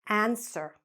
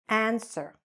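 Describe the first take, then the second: The two takes are said the same way.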